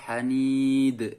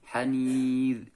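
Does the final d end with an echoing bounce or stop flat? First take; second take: bounce; flat. First: The final d is released with a bouncing echo. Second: The final d stops flat without any echo. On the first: The speaker calls it wrong. "nggak boleh" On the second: The speaker calls it right. "tidak boleh dipantulkan"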